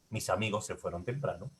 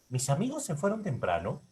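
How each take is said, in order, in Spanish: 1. El tono baja al final de la oración. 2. El tono sube al final de la oración. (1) "Inflexión tonal descendente. Esta de acá, hacia abajo obviamente"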